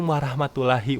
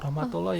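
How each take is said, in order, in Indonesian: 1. Vokal setelah r adalah 'a' terbuka. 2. Vokal setelah r adalah 'o' bulat. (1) "salam tuh kayak gini ya"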